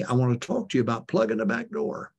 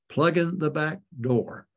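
First: Said in the usual way. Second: Plugging the back door repeated slowly, each word weighed; slow emphatic repeat. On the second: Shown as a demonstration. Preacher repeating his sermon title to the congregation, slow and deliberate. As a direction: lean on Plugging and let the title sink in.

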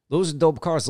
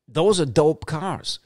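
First: Said in the usual way. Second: Drawn out, relishing every word; slow and admiring; slow savoring. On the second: Real, not acted. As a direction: savor it slowly like a dream car. Savoring repeated praise of cars.

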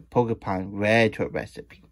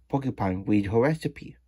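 First: "read" said like "red"; corrected "read". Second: "read" said like "reed"; misread "read". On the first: Loomis correcting the misreading, "read" as "red". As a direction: say "read" with a short e, as in past tense. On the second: Loomis misreading the story, "read" as "reed". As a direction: say "read" with a long ee, as in present tense. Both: Real, not acted. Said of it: "read the word read wrong".

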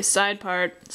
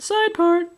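First: Said in the usual way. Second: Much higher voice, a little louder; exaggerated repeat. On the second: Real, not acted. Artist repeats the hair style to herself, exaggerated high voice. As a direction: pitch it way up, playfully overdone. Repeats side part in raised voice.

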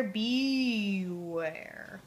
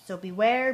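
First: Sung, one long, booming low note like the horn; deep sung note. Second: The start of the tune, sung gently; sung line, rising. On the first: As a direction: sing beware slow and long, sinking way down deep. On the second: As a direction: sing so beware lightly with a lift at the end. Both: Shown as a demonstration. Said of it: "The music goes way down deep like this".

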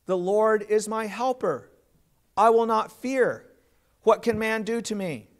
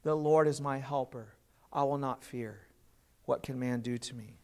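First: Firm, louder confident proclamation of "The Lord is my helper"; heartfelt declaration. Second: Softer and lower, an inward affirmation fading down; quiet confession. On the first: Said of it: "we must say from the depths of our heart". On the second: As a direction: say it softly to yourself, trusting. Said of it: "for us to say". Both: Shown as a demonstration.

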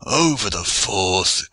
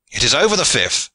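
First: Slow, dismayed groan; mild groan. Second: High, excited call; loud cry. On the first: Aylward watching the rival's bolt, groaning mildly. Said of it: "groaned Aylward". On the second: Gascon cheering his comrade's bolt, crying out loudly. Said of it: "cried a Gascon loudly". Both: A narrator's reading.

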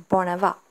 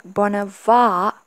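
First: Bonava with short final a; Bonava as pronounced. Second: Bonava with long, drawn-out final a; Bonava as written. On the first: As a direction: keep the last vowel of Bonava short. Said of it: "but you pronounce it just". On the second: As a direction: stretch the last vowel of Bonava. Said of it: "We write it like". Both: Shown as a demonstration.

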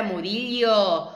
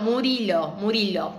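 First: Murillo said with a ll sound, like Murilio; first try, Murillo with the ll glide; mispronounced name. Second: Murilo said with a plain l, no ll sound; corrected to Murilo, plain l; corrected name. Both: Shown as a demonstration. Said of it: "Mu-, no".

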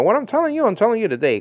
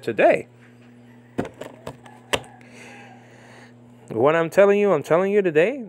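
First: Telling you today run together; wrong comma reading. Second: Today set apart with a pause and rise; Today lifted; comma after Today. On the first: Mocking the misplaced comma, ironic emphasis. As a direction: stress on telling. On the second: Preacher reading Jesus's words with comma placed right. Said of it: "And he said". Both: Shown as a demonstration.

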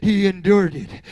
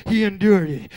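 No difference in how they are said.

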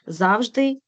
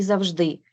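First: Завжди with the first syllable ЗАВ stressed. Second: Завжди with the last syllable ДИ stressed. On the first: (завжди з наголосом на перший склад) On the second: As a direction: lean on ДИ in завжди. (завжди з наголосом на останній склад) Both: Shown as a demonstration. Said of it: "слова із подвійним наголосом".

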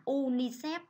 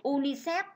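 First: Unicef said slowly as oo-nee-sep, each syllable distinct; unicef, slow and deliberate, with a rising end; careful pronunciation. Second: Said in the usual way. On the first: Shown as a demonstration. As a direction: spell out unicef slowly, as a teacher would. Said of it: "đọc là". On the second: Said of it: "đây là một cụm từ được viết tắt".

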